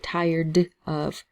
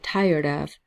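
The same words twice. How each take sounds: First: The d is said clearly and separately. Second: The d is soft and linked forward. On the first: The speaker calls it wrong. "we don't have to say tired of" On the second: The speaker calls it right. "We say tired of ... the D's and T's both have a rolling sound"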